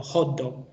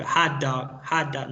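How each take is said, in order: First: "hot dog" as Spanish "jot dog", round O; round, Hispanicized O in "hot dog"; wrong pronunciation. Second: "hot dog" as American "haht dawg", drawn out; correct pronunciation. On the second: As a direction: open "hot" to an "ah" vowel in "hot dog". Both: Shown as a demonstration. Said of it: "no hot dog".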